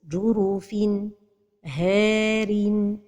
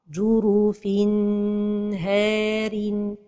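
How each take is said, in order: First: There is a break between N and H. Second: The N is held too long before H. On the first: "c'est la pause" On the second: "c'est de prolonger sans temps"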